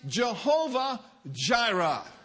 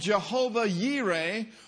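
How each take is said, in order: First: The name is said in the Western way. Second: The name is said in a non-Western way.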